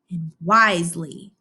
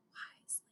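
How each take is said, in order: First: Said in the usual way. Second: A soft whispered repeat of wisely; whispered echo. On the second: Shown as a demonstration. Teacher echoing the vocabulary word, whispered. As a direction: breathe wisely back as a whisper. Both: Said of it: "say with me".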